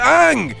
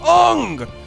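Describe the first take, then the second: First: The vowel sounds like the one in 'bang'. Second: The vowel sounds like the one in 'long'. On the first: The speaker calls it right. "his name is Aang" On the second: The speaker calls it wrong. "It's not Ong"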